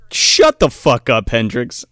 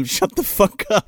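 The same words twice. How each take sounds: First: Slow, louder mock snap; slowly and loudly bark the order to shut up; mock snapping. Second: Said in the usual way. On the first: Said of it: "And he's like". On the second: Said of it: "He literally says that to him".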